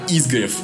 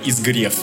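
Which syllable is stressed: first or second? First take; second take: first; second. First: The stress is on the first syllable. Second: The stress is on the second syllable. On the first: The speaker calls it right. "Хотя на самом деле она «изгрев»" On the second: The speaker calls it wrong. "которую я постоянно называю «изгрев»"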